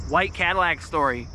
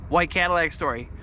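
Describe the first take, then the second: No difference in how they are said.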